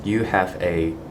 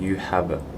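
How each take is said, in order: First: The final a is a full vowel. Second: The final a is reduced to schwa. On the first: The speaker calls it wrong. "instead of saying" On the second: The speaker calls it right. "the a sound I will just transform it to a schwa sound"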